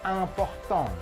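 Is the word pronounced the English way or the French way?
French. It is pronounced with French sounds. "bahasa Perancisnya penting itu important"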